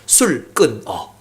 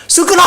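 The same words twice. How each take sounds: First: Low, very slow, quiet command; God's quiet command. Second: Much higher, louder, quick shouted "술 끊어!" with a laugh; booming command. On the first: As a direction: drop low and lay out each syllable, "술 끊어". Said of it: "딱 세 글자 주세요". (낮고 아주 느리게 "술 끊어") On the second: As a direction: bark "술 끊어!" like a thunderclap. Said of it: "진짜 청천벽전". (높고 크게 외치는 "술 끊어!") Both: Retold or imitated.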